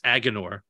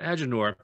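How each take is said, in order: First: The name begins like the word 'agony'. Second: The name does not begin like 'agony'. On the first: The name comes from the word agony. "it's clearly inspired by Agony and it's Agenor" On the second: The name does not come from the word agony. "I always pronounce it Agenor"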